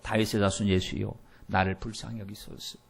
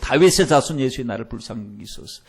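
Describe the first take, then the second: First: It is said at a normal volume. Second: It is cried out much louder.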